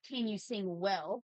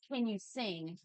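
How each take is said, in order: First: "well" slowed and weighted; stress on well. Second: Said in the usual way. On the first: Shown as a demonstration. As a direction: lean on "well", slowly. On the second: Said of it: "some people are like".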